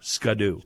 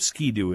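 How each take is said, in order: First: The first syllable has an 'uh' vowel. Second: The first syllable has an 'ee' vowel.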